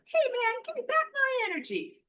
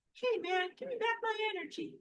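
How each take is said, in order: First: Very high and loud cartoon squeak; hammed-up little figure demanding its energy back; silly mock voice. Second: High squeaky cartoon plea, fast on the second line; a goofy little stick figure whining for its energy back; silly mock voice. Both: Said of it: "I have to be a little silly".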